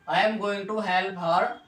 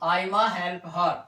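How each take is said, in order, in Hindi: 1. "I am going to" पूरा बोला जाता है। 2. "I am going to" छोटा होकर "aima" बोला जाता है।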